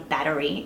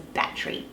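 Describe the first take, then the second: First: The vowel between T and R is kept. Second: The vowel between T and R is dropped. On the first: This is a habit picked up in the United States. The speaker calls it wrong. "it's not a battery" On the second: This is the authentic Australian way of saying it. The speaker calls it right. "it's a battery"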